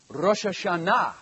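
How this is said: The pitch rises at the end. The speaker calls it right. "Every word has an uplift at the end"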